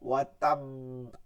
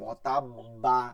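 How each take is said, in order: First: The final b ends in a light, doubled bounce. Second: The final b is followed by a full 'a' vowel. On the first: The speaker calls it right. "কলকলা প্লাস কলকলা" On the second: The speaker calls it wrong. "বা বললে তো জবর দিয়ে দিলাম, ওয়াতাব্বা, এটা না"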